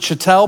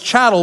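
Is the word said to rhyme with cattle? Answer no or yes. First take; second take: no; yes. First: The word does not rhyme with cattle. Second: The word rhymes with cattle. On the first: The speaker calls it wrong. "some people pronounce it chattel" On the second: The speaker calls it right. "it's chattel because it's like the word cattle"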